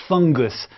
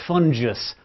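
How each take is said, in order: First: Said in the usual way. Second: "fungus" with a soft g, like "fun-jus"; "fungus" as FUN-jus, not FUNG-gus; soft-g mispronunciation. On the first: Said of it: "I say fungi because it's fungus". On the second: Shown as a demonstration. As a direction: say "fungus" with a j sound in the middle. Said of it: "not fungus".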